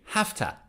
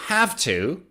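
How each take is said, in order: First: The words blend quickly into one reduced word. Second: Both words are said fully and separately. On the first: "native speakers say have to, have to when they speak fast" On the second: "Instead of have to"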